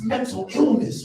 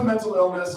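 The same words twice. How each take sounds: First: It is said in a British rapper accent. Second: It is said in the speaker's plain voice. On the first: "say it like a British rapper" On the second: "doesn't sound cool"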